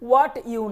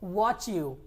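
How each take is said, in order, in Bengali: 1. "t" আর "y" আলাদাভাবে উচ্চারণ করা হয়। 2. "t" আর "y" মিশে গিয়ে ch হয়ে যায়। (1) "হোয়াট ইউ না বলে" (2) "বলবো ওয়াচ ইউ"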